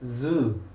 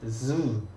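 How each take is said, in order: First: It starts with a buzzing voiced z sound. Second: It starts with a buzzing voiced z sound.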